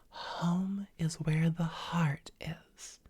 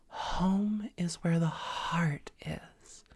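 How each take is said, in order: No difference in how they are said.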